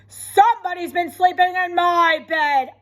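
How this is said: A loud, growly Papa Bear voice.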